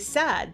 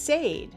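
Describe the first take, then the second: First: The vowel does not sound like rain's vowel. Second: The vowel sounds like the vowel in rain. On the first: The speaker calls it right. "But we say said" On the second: The speaker calls it wrong. "you'd expect the word to be read as said"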